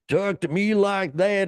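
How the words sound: It is said in a put-on Southern accent.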